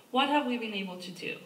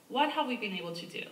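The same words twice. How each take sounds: The two takes are said the same way.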